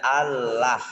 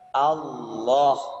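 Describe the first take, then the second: First: The L is light, with a clear A vowel. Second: The L is heavy, with a dark O-like vowel. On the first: The speaker calls it wrong. "Kalau Allah berarti lamnya dibaca tipis" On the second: The speaker calls it right. "La-nya dibaca O"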